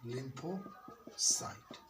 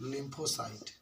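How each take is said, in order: First: "lymphocyte" in two drawn-out parts, lympho, pause, cyte; syllable-split dictation. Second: Said in the usual way. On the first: Shown as a demonstration. Teacher dictating a new term to pupils, slow "lympho... cyte". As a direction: break "lymphocyte" slowly after lympho, softly.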